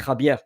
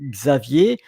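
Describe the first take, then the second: First: The name is said with Spanish pronunciation. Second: The name is said with French pronunciation. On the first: "But in uh, Spanish, could be Javier" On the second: "in French, Xavier"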